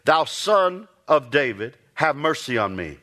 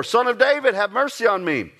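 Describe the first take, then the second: First: A slow, measured plea, only lightly raised; calling out the first time, held back; crying out for mercy. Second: The beggar calls out again, pushing harder; a pleading shout to be heard over the crowd; crying out the more. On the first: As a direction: blind beggar's first cry, restrained. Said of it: "began to cry out and say". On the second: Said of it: "he cried out the more". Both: Retold or imitated.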